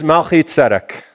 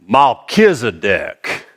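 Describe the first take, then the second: First: The name is said in a neutral accent. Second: The name is said in a Southern US accent.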